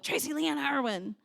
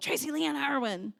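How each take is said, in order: First: The name is said in a scolding tone. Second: The same.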